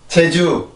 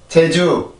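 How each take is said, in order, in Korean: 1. 한국어 j 소리로 시작해요. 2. 한국어 j 소리로 시작해요.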